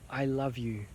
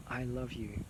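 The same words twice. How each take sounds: First: Said in the usual way. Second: Much softer, tender repeat; a quiet heartfelt I love you; tender hush. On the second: Real, not acted. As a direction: let it fall to a tender near-hush. Softer repeat of the same words.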